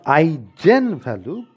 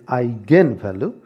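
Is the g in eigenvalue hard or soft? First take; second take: soft; hard. First: The g is said as a soft j sound. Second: The g is said as a hard g sound. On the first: The speaker calls it wrong. "it is not eigenvalue" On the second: The speaker calls it right. "because it's a German word, and in the German language, the letter G is used to denote the sound of G"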